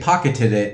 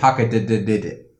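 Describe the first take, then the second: First: The word is said with its normal syllables. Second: The word is said with an extra syllable. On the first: "he wouldn't say pocketed it" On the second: "He always adds an extra syllable"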